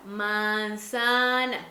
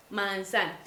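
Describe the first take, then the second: First: MANZANA stretched very slowly, syllable by syllable; drawn-out word model. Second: Said in the usual way. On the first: Shown as a demonstration. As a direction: stretch "manzana" out for a child to repeat. Modela la palabra para repetir. ("manzana" muy lenta y alargada, para que la repita)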